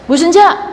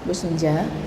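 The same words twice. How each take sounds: First: The voice is raised, high and loud. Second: The voice is calm, low and soft. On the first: The speaker sounds like she is scolding from afar. The speaker calls it wrong. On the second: The speaker is close and calm, so the message gets through. The speaker calls it right.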